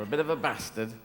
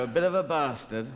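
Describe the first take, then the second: First: BASTARD with a short A as in cat; short-A northern English "bastard"; northern English pronunciation. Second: BASTARD with a long AH in the first syllable; long-A southern English "bastard"; southern English pronunciation. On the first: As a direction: say bastard northern style, short first vowel. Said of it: "but northern is bastard". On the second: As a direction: say bastard as "bah-stard", southern style. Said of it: "the southern word is bastard". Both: Shown as a demonstration.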